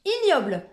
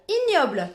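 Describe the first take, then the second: No difference in how they are said.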